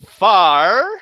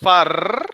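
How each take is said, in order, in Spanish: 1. Termina con una R suave, estilo inglés. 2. Termina con una R vibrante, estilo español.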